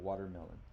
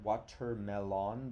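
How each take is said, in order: First: The first syllable has its usual everyday sound. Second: The first syllable is sounded out as spelled. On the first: The speaker calls it right. "so we have to change the sound a little bit" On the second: The speaker calls it wrong. "it should say wat, water watermelon, but we don't say watermelon"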